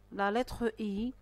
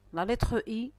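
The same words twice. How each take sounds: The two takes are said the same way.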